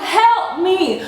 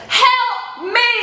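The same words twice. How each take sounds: First: High repeated mock plea; cry for help. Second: High, drawn-out mock plea; cry for help. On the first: She re-enacts calling the cashier, mock-desperate. Repeats her appeal, laughing. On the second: She pleads to the cashier for help, calling out. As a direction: call out for rescue, hammed-up and high. Appeals to cashier during struggle.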